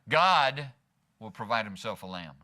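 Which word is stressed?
God. The word God carries the main stress. God, not the worrier, will take care of it. "God, God will provide himself a lamb. I don't have to worry about it"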